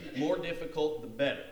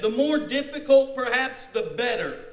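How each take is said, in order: First: Said in the usual way. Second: High, loud, keen declaration; eager boast. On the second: Acted. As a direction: relish the challenge with gusto. Voices Naaman's eager boast.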